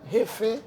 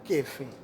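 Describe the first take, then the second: First: The word starts with a breathy h sound. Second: The word starts with a hard k sound. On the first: The speaker calls it right. "se takou se yon H" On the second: The speaker calls it wrong. "pa prononse takou Kefe"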